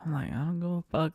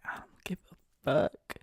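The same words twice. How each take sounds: First: Said in the usual way. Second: Slow breathless whisper, I don't give a fuck; a hushed, slowed retort; whispered brush-off. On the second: Retold or imitated. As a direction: shrug it off in a whisper. Retold dismissive reply.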